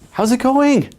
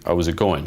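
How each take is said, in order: First: The voice rises eagerly at the end. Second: The voice stays flat and monotone throughout. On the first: The speaker is trying too hard. "your voice goes up at the end" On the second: The listener feels nothing. "Kind of like a robot. It's just very flat"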